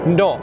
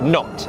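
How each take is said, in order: First: The final T is a glottal stop. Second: The final T is fully released. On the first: It sounds natural and standard. "I make it a glottal T" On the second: It sounds posh. "they would pronounce the T properly"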